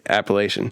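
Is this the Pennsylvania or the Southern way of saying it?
Pennsylvania. It is said the Pennsylvania way.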